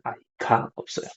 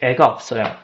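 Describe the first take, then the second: First: The first word is said in full, two syllables. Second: The first word is shortened to one syllable.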